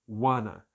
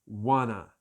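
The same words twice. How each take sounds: The two takes are said the same way.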